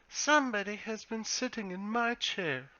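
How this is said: It is said in a medium-pitched bear voice.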